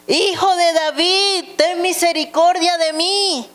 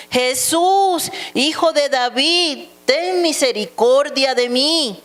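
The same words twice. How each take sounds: First: Very high, insistent narrated plea; urgent calling voice within a scripture reading; crying out more insistently. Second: High, pleading call in a read-aloud; narrator's raised-pitch cry. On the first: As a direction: cry out for mercy at a much raised pitch. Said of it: "pero él clamaba mucho más". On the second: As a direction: call out for mercy while reading scripture. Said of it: "comenzó a dar voces". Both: A narrator's reading.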